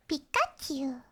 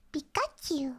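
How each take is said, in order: First: Pikachu voice. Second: Higher squeaky "Pikachu" with a falling end. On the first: Streamer trying Pikachu again for chat, squeaky. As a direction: squeak the name like the little Pokemon. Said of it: "Is that good?". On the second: Streamer doing a Pikachu impression for chat, light squeak. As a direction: chirp it like the Pokemon. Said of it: "can I do a Pikachu one?". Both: Shown as a demonstration.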